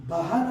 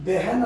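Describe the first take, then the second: First: బహన్ said ba-han with an open a; బహన్ with a plain a before the h; బహన్ the incorrect way, ba not be; wrong pronunciation. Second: బెహన్ said beh-han with an e; బెహన్ with be, not ba, in the first syllable; బెహన్ modelled clearly by the teacher; correct pronunciation. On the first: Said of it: "బహన్ అని అనకూడదు". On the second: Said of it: "బెహన్ అని అనాలి". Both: Shown as a demonstration.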